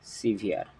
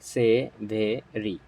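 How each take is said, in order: First: It sounds like 'si-veer' with two syllables. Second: It sounds like 'sev-ery' with three syllables. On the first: The speaker calls it right. "এর উচ্চারণ হবে হচ্ছে সিভিয়ার" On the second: The speaker calls it wrong. "It's not সেভেরি"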